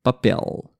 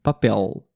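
Both takes have the same delivery.

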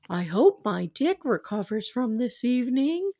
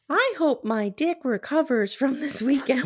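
First: It is said in a Barney-like voice. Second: It is said in a Ralph Wiggum voice.

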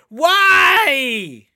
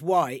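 First: It is said with big, intense emphasis. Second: It is said plainly, without extra emphasis.

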